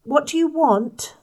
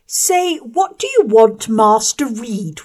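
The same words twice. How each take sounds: First: Awkward diffidence. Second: High, loud mocking correction; slow, bullying boy correcting her; bullying schoolboy. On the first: Acted. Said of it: "I asked with awkward diffidence". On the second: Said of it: "was the answer".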